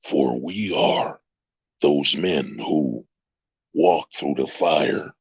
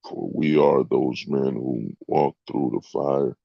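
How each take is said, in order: First: It is read in a dramatic movie-trailer voice. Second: It is read in an ordinary speaking voice.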